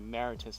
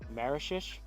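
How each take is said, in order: First: The middle of the name has a 't' sound. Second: The middle of the name has an 'sh' sound. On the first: The speaker calls it wrong. "I believe I was pronouncing it Maritus last time" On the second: The speaker calls it right. "it's pronounced Marishish, something like that"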